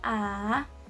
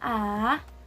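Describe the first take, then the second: First: The pitch goes down in the throat. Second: The pitch goes down in the throat.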